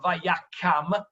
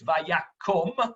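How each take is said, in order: First: The second syllable's vowel sounds like 'ah'. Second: The second syllable's vowel sounds like 'oh'. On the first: The speaker calls it wrong. "it's not Vayakam" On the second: The speaker calls it right. "that second kamatz is a kamatz katan, so it's Vayakom"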